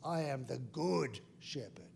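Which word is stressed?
good. The stress falls on good.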